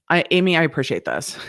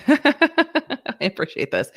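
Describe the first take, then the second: First: Said in the usual way. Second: High, slow, laughing through the words. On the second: Real, not acted. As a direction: laugh it out, lingering on each word.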